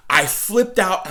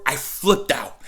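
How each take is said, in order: First: "I flipped out" drawn out slowly, each word leaned on; slow emphatic repeat. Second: Said in the usual way. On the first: Real, not acted. Fan stressing how upset the news made him, slowly.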